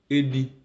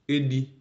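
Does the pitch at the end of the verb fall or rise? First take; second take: rise; rise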